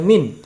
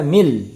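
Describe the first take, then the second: First: The word ends with a clear n sound. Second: The final n merges into an l sound. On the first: The speaker calls it wrong. "tidak lagi dibaca min" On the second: The speaker calls it right. "dibaca mil"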